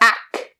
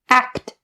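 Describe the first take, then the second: First: One of the final consonant sounds is dropped. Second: Both the K and T sounds are clear. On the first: The speaker calls it wrong. "Do not drop a single one. You don't say act or ack" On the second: The speaker calls it right. "They both have to be there"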